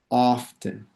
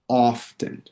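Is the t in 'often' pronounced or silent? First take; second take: pronounced; pronounced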